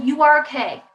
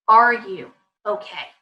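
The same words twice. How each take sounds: First: "You are okay" as a firm verdict; dismissive statement. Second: Slow, lower "Are you okay"; caring question. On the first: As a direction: insist on it, closing the matter. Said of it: "Instead of". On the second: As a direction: ask slowly, handing it over to the child. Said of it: "putting the ball back in their court". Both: Shown as a demonstration.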